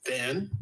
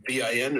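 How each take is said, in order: First: Vin said the French way, with a nasal vowel and no final n; shy attempt at the French word vin. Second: V I N spelled letter by letter, not said as a word. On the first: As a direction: try the French vin, hesitant and a bit unsure. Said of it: "I'm not gonna say this right". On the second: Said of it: "V I N is". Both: Shown as a demonstration.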